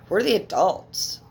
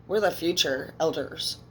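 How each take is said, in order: First: Slow and louder, leaning on "the"; emphatic. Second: Said in the usual way. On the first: Real, not acted. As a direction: drag out "We're the adults" slowly and loudly. Insisting to viewers about adulthood.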